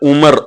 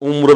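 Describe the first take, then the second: First: A vowel is inserted between m and r. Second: The m and r join with a final u. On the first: The speaker calls it wrong. "ஒரு சில பேர் உமர் அப்படின்னு சொல்லுவாங்க" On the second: The speaker calls it right. "உம்ரு தான் சரியான உச்சரிப்பு"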